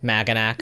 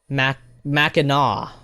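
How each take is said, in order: First: The word ends with a k sound. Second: The word ends without a k sound. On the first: The speaker calls it wrong. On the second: The speaker calls it right.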